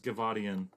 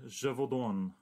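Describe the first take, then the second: First: The name ends in a '-dian' sound. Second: The name ends in a plain '-dan' sound. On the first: The speaker calls it wrong. "There's no I's in there" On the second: The speaker calls it right. "you said it right"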